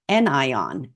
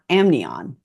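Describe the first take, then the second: First: It is said with no 'm' sound, an-ion. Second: It is said with an 'm' sound, am-nion. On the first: The speaker calls it right. "It should be called anion" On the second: The speaker calls it wrong. "and not amnion"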